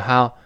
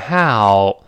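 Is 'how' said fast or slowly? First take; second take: fast; slowly. First: The word is said quickly and clipped short. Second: The word is said slowly with a full glide. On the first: "他把ow 这个声音读快了呢，口型就来不及做这个动作，就how" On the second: "当然读慢了是how"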